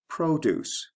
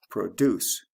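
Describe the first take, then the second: First: "produce" as PRO-duce, high first syllable with long O; stress on first syllable. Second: "Produce" as the verb pro-DUCE; stress on second syllable. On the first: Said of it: "produce has a long O". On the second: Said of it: "We have stress and also sound changes". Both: Shown as a demonstration.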